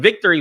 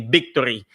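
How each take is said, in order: First: The word begins with a V sound. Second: The word begins with a B sound. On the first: "instead of saying victory" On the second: "we say victory"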